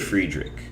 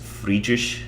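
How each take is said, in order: First: The name is said with an English-style pronunciation. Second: The name is said with a German-style pronunciation. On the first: "I say Friedrich, and technically, I don't think that's the proper German pronunciation" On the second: "I think the German one is Friedrich"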